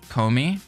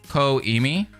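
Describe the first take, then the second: First: The name is said in two syllables. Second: The name is said in three syllables. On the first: The speaker calls it wrong. "As a German speaker, I pronounce it Komi, but I'm sure that's not how it goes" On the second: The speaker calls it right.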